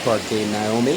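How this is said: The name is said with a Costa Rican pronunciation.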